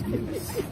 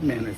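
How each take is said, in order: First: The first syllable sounds like 'min'. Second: The first syllable sounds like 'men'. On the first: The speaker calls it right. "it's Minutes" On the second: The speaker calls it wrong. "It's not menace"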